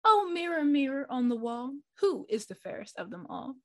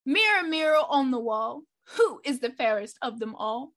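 First: A hint of a vain queen asking; queen asking the mirror. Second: Dramatic call. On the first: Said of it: "asked the mirror". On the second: Acted. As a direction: call it out like a show opener. Dramatic show-opening call.

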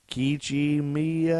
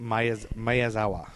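First: Kiichi Miyazawa sounded out slowly, drawn out at the end; unsure pronunciation. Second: Miyazawa in a slow, halting retry; second attempt. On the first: Host attempting a prime minister's name, unsure drawn-out Kiichi Miyazawa. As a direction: stretch Kiichi Miyazawa slowly, higher than usual. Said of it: "Is that right?". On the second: Host retrying a doubted name, slow halting Miyazawa. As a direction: break off at "Miyaz-", then say Miyazawa evenly. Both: Real, not acted.

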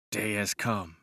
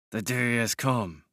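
First: Grit it out under your breath; through clenched teeth. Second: "the day has come" said slowly, each word weighed; slow clenched repeat. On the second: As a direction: drag it out through clenched teeth. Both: A narrator's reading. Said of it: "kept repeating between my clenched teeth".

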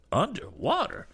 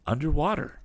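First: Very high-pitched incredulous question; astonished echo. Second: Said in the usual way. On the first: Acted. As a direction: repeat it in high-pitched disbelief. Damon echoes it in astonishment.

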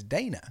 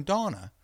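First: "Dana" with ay as in "day"; self-used pronunciation. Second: "Dana" with a long ah; mistaken pronunciation. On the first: Co-host showing how the man says it, "Dana" as DAY-nuh. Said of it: "refers to himself as Dana". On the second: Co-host complaining about a workmate's mistake, "Dana" as DAH-nuh. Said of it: "And you're calling him Dana". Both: Shown as a demonstration.

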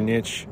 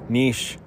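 First: Niche said nitch, rhyming with itch. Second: Niche said neesh, long ee and sh. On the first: Says niche as nitch before correcting himself. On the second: Corrects niche to neesh for his viewers. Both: Shown as a demonstration.

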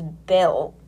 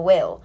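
First: Bill said with a b, as in a bill to pay; slip of the tongue. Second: Will said with a clear w, a bit louder; correcting a slip. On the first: Narrator retelling the will scene, says bill by slip. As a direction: say bill instead of will by mistake. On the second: Narrator correcting her slip, says will firmly. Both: Real, not acted. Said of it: "Not bill, will".

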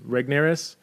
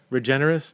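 First: "Regnerus" with hard g straight into n; questioning "Regnerus", said REG-nair-us; trying a pronunciation. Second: Questioning "Regenerus", said ree-JEN-er-us; trying a wrong pronunciation. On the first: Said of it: "how to pronounce his name". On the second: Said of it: "No, not Regenerus". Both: Shown as a demonstration.

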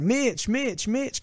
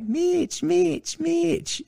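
First: Put-on high eager calls of a little kid; kid calling out. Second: Very high, teasing mimicry of a kid; mock the kid's squeaky calls; mocking imitation. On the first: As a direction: shout his name up high, like a kid hoping to be noticed. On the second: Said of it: "like, making fun of me".

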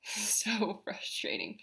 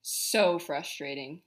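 First: A soft exasperated laugh through the words; laughing quietly. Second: Said in the usual way. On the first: Real, not acted. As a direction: laugh it off under your breath.

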